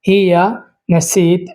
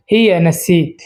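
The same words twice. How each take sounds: First: Hiya নাসিত stretched slowly, every sound clear; slow teacher's repeat of Hiya নাসিত; slow model pronunciation. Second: Said in the usual way. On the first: Shown as a demonstration. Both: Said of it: "তো প্রথম শব্দ হচ্ছে নাসিত".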